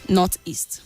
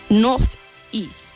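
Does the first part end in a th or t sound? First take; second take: t; th. First: The first part ends with a t sound. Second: The first part ends with a th sound. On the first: The speaker calls it wrong. "it sounds like you're saying N O T, then east" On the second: The speaker calls it right.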